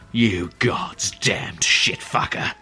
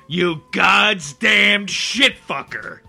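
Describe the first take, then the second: First: It is said in a menacing British accent. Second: It is said in the speaker's ordinary accent.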